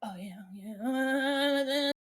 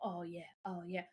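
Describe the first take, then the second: First: Loud, drawn-out "oh yeah"; aggressive groove. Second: Soft, low-key "oh yeah"; easy groove, kept low and quiet; laid-back groove. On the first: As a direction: stretch the last yeah out, higher and louder. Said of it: "it's like an aggressive head nod". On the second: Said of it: "he starts doing the whole". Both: Retold or imitated.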